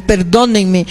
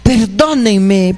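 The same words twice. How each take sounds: First: Said in the usual way. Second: Slow, drawn-out plea for forgiveness; mild imitated sob-plea; pleading. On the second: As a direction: beg like a repentant sinner in tears. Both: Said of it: "está llorando y dicen".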